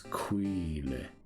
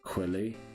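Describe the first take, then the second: First: The first vowel is long, as in queen. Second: The first vowel is short, as in quill. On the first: The speaker calls it right. "It's Queely" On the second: The speaker calls it wrong. "I'm mispronouncing all of my Pokemon's names"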